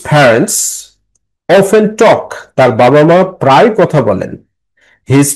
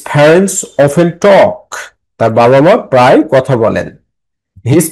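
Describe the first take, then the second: Both takes have the same delivery.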